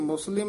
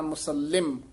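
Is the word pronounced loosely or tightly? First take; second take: loosely; tightly. First: The word is said loosely, without tightening. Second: The word is said tightly, with added force. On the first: The speaker calls it wrong. "ਇਹ ਵੀ ਮੁਸਲਿਮ ਨਹੀਂ ਕਹਿਣਾ" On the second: The speaker calls it right. "ਕਸ ਕੇ ਉਚਾਰਨ ਕਰਨਾ ਹੈ"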